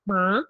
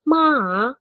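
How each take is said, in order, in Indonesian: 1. Suku kata ini diucapkan dengan nada naik. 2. Suku kata ini diucapkan dengan nada turun-naik. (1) "kalau kedua ma" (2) "kalau ketiga ma"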